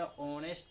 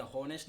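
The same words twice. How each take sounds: First: ऑनेस्ट with a silent h; correct pronunciation. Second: हॉनेस्ट with the h sounded; wrong pronunciation. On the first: Teacher showing how honest is read, ऑनेस्ट, correct pronunciation. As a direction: start ऑनेस्ट straight on the vowel. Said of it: "ऑनेस्ट पढ़ते हैं". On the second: Teacher warning students off हॉनेस्ट, wrong pronunciation. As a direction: breathe an audible "h" to open हॉनेस्ट. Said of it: "हॉनेस्ट नहीं पढ़ते हैं". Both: Shown as a demonstration.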